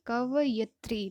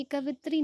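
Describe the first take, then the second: First: कवयित्री said slowly and distinctly, ka-vay-it-ri with a clear य; slow correct pronunciation. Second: कवित्री said as the wrong spelling, ka-vit-ri without the ya sound; wrong form. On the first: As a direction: spell out कवयित्री syllable by syllable like a teacher. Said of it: "कवयित्री उच्चारण करके देखिए". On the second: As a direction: say कवित्री as the mistaken version, dropping the य. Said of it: "कवित्री नहीं होता है". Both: Shown as a demonstration.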